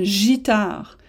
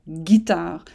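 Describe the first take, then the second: First: The word starts with a soft g sound. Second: The word starts with a hard g sound. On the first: "si on ne met pas le U, ça donne gitare" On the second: "si on met le U, ... on a guitare"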